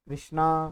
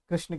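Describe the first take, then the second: First: The word ends with an added 'a' vowel. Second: The word ends on the consonant 'n'.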